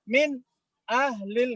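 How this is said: There is a short break between the two words. The speaker calls it wrong. "nggak boleh ya. Itu saktah ya"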